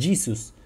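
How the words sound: It is pronounced the English way. "en inglés dicen Jesus"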